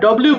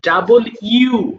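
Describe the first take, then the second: First: The name is clipped into a short blend. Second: The name is said fully as two parts. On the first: The speaker calls it wrong. "But এটা আমরা ডব্লিউ বলি" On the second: The speaker calls it right. "কিন্তু ডাবল ইউ হবে"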